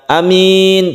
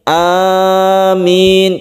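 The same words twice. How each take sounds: First: The vowels are said short. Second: The vowels are drawn out long. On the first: The speaker calls it wrong. "Bukan amin" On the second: The speaker calls it right. "tapi amin, karena sesuai dengan makna dari amin itu sendiri"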